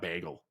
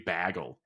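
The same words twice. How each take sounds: First: The A vowel is short and clipped. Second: The A vowel is long and drawn out. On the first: This is how the speaker's own group says it. "not bagel" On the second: This is how people in Kansas say it. "In Kansas, it's like bag, long A's. Like it would be bagel"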